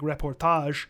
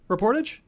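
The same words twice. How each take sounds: First: The word is pronounced with French sounds. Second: The word is pronounced with English sounds. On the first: "some people pronounce it all French" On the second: "I'm not going to do that"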